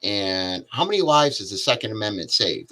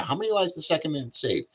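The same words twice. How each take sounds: First: Said in the usual way. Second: Higher and faster, pressing the question; pushed hard. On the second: Shown as a demonstration. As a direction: push the question home, higher. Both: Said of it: "Let's push that".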